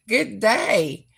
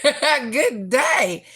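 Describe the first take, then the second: First: Said in the usual way. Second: Laughing. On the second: Real, not acted. Laughing while greeting viewer.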